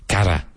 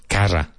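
The two takes are said the same way.

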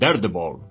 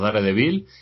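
First: The name is said with English-style sounds. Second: The name is said with Spanish-style sounds. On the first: It is said the way native speakers say it. "decirlo como lo dicen ellos, que es Daredevil" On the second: It is adapted to the local language. "Una, la nuestra, que es Daredevil o Daredevil"

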